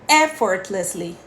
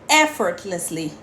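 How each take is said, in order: Both takes have the same delivery.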